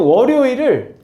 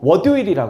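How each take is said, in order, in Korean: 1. 단어를 분명하고 자연스럽게 발음했어요. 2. 단어를 혀 짧은 소리로 발음했어요.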